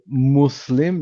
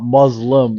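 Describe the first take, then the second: First: The middle consonant is a hissing s sound. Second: The middle consonant is a buzzing z sound. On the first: The speaker calls it right. "it's with the S" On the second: The speaker calls it wrong.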